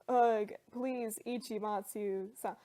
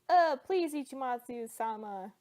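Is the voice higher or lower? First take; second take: lower; higher. First: It is said in a lower voice. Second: It is said in a higher voice.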